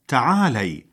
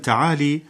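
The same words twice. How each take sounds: First: The L is followed by an 'a' vowel. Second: The L is followed by an 'i' vowel. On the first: The speaker calls it right. "والصواب تعالي بفتح اللام" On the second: The speaker calls it wrong. "فينطقونها بكسر اللام خطأ"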